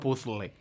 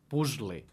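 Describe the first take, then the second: First: The middle consonant is a voiceless sound. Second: The middle consonant is a voiced s sound. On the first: The speaker calls it wrong. "el que no hem de pronunciar és com en castellà" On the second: The speaker calls it right. "pronunciat amb una S sonora"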